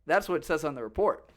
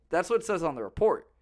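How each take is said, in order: Both takes have the same delivery.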